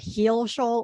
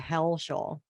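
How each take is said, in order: First: The first syllable has a long 'ee' vowel. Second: The first syllable has a short 'e' vowel. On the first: "two different versions of pronunciation" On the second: "two different versions of pronunciation"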